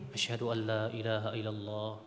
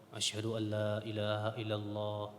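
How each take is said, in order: Both takes have the same delivery.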